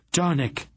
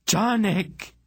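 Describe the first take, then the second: First: Sudden high-pitched call; sharp cry. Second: Very high, drawn-out cry; shriek. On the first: Aunt calls to the smith in alarm, sharp cry. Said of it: "Aunt Paul cried sharply". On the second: Aunt hears the detonation beside the smith, shrieking. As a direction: shriek the name far above normal pitch. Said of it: "Aunt Paul shrieked". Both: A narrator's reading.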